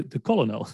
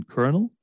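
First: Colonel said as COLLO-NO, no R; mistaken spelling pronunciation. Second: Colonel said as KERNEL; correct pronunciation. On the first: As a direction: insist on "collo-nol" for colonel. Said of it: "none of the letters you're saying". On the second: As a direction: colonel in two beats with an R, "ker-nel". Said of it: "there's no R". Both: Retold or imitated.

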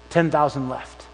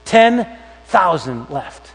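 First: Said in the usual way. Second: "Ten thousand left" drawn out very slowly, each word weighted; slow emphatic repeat. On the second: Shown as a demonstration. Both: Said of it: "repeated for emphasis".

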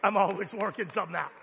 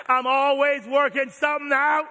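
First: Said in the usual way. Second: Louder emphatic repeat. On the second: Shown as a demonstration. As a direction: punch it out, louder. Repeats line louder second time.

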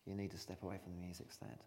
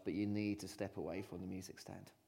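First: Hushed, firm repeat; softer repeat. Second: Said in the usual way. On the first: Shown as a demonstration. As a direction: drop the voice for the second time. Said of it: "repeated line". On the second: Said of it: "first take".

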